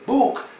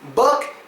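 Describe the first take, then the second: First: The vowel is a long oo sound. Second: The vowel is a short, clipped sound. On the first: The speaker calls it wrong. "they automatically assume that it makes an oo sound" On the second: The speaker calls it right. "it makes the uck, uck sound"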